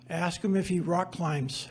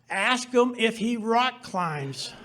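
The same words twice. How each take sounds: First: It is said quietly. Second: It is said loudest of all.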